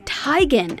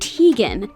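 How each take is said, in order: First: The first syllable rhymes with 'tie'. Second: The first syllable does not rhyme with 'tie'. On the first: The speaker calls it right. "as in bow tie" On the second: The speaker calls it wrong. "and not"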